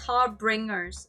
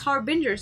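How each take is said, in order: First: An extra R sound follows the B. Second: No R sound follows the B. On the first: The speaker calls it wrong. "I imagined an R in that word" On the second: The speaker calls it right. "no, it's Harbingers"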